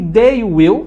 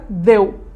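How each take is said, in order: First: The two words are said in full. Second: The two words are contracted into one syllable. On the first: "they will vira deu" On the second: "vira deu"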